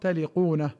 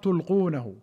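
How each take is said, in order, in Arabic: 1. يُقال taliqunahu، مع قاف خفيفة. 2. يُقال tulqunahu، مع لام صامتة. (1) "من الولق وهو الكذب" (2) "بتاء واحدة خفيفة مرفوعة وإسكان اللام"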